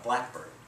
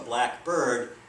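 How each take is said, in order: First: The stress is on the first syllable. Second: Both parts get about equal stress. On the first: It names a particular bird species. "the first syllable gets a greater stress"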